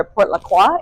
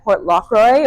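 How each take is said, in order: First: French pronunciation of "Port La Croix"; French accent. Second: Said in the usual way. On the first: Shown as a demonstration. Guide offering the post office's French name, French accent. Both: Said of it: "if you're saying it in a French accent".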